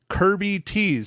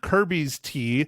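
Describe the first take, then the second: First: The s sound comes at the very end. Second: The s sound comes right after Kirby. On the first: The speaker calls it right. "It is Kirby Tees" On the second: The speaker calls it wrong. "I said it wrong last week"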